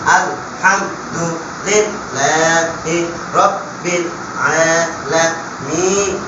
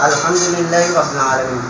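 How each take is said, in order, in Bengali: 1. প্রতিটি শব্দাংশ আলাদাভাবে, থেমে থেমে বলা হয়। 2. শব্দাংশগুলো এক সাবলীল ধারায় জুড়ে বলা হয়। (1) "এবার আমরা বাংলা বাঙ্গ উচ্চারণ করলাম" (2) "এবার মতন উচ্চারণ করবো"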